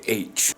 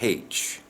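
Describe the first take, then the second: First: The letter name starts with a vowel sound. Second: The letter name starts with an h sound. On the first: The speaker calls it right. "in English, we say H" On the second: The speaker calls it wrong. "We don't say H"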